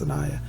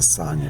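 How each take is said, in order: First: The name is said as Sanaya. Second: The name is said as Sonia. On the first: This is how the spelling makes it look. "it looks like it's pronounced Sanaya" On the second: This is how the author herself says it. "I think she pronounces it Sonia"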